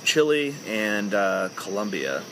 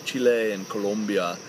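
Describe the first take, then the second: First: The names are said in a plain English accent. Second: The names are said in a put-on CNN-style accent. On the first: "I apologize for not speaking in a CNN accent" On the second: "I'm not saying"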